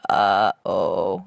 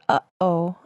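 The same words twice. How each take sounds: First: The stops are drawn out into a low creak. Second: Two short, clean stops in the throat. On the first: "when the glottal stop is extended ... That's vocal fry" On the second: "a stop in the back of the throat that sounds like this"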